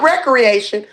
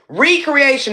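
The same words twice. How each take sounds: First: The word begins with a short 'rek' sound. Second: The word begins with a long 'ree' sound. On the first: Leisure and play. The speaker calls it wrong. "not recreation" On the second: Being created anew. The speaker calls it right. "it's time to be recreated"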